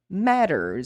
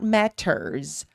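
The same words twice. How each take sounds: First: The middle consonant is a quick r-like tap. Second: The middle consonant is a hard, clear T. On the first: The speaker calls it right. "will have this ra sound" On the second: The speaker calls it wrong. "Not matters"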